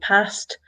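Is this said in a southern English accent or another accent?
another accent. It is said in a non-southern English accent. "I say past"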